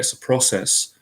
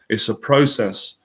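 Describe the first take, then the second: First: The word is said in an American accent. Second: The word is said in a British accent.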